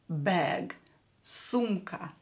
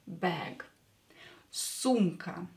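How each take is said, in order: Both takes have the same delivery.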